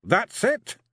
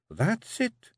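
First: High, louder gruff Scots grumble; growling Feegle. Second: High, firm Scots woman's voice; Jeanie the Kelda. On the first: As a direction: grumble it, disgusted by the letters. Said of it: "he said". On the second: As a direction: coax him like a wife who rules the clan. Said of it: "she said at last". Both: A narrator's reading.

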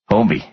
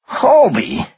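First: Said in the usual way. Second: Very high, astonished echo; incredulous. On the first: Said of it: "Stone said". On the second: A narrator's reading. Finance guy repeating the culprit's name, incredulous. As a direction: repeat the name in sheer disbelief, voice way up.

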